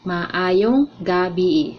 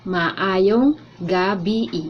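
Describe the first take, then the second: The two takes are said the same way.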